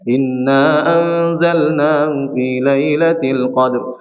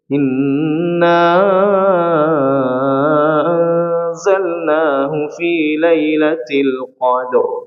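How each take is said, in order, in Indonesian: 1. Vokal sebelum 'anzalnahu' dibaca pendek. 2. Vokal sebelum 'anzalnahu' dibaca panjang. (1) "cenderung uh, memendekkan bacaan" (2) "Tapi kalau dalam Masyatibi atau Syatibiyah"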